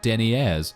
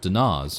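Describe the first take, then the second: First: The word is said as deniers. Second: The word is said as dinars. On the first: The speaker calls it wrong. "not deniers" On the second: The speaker calls it right. "it's obviously it's obviously dinars"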